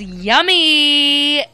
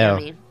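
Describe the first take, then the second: First: It is said in an excited, enthusiastic tone. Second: It is said in a flat, unexcited tone.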